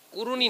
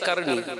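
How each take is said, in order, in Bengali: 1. নামটি u স্বরে উচ্চারিত হয়, Quruni। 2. নামটি a স্বরে উচ্চারিত হয়, Qarni। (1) "কুরুনি নয়" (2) "তার গোত্রের নাম হচ্ছে কারনী"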